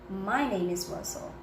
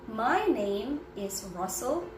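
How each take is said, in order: First: The words run together with linked sounds. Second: Each word is said separately with breaks. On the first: The speaker calls it right. "you combine that my name plus is" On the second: The speaker calls it wrong. "I did not say, my name is Russell separately"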